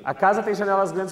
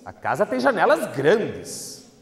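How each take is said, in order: First: It is said as a calm, plain statement. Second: It is said as an excited exclamation.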